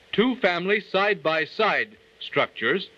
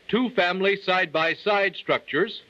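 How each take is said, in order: Both takes have the same delivery.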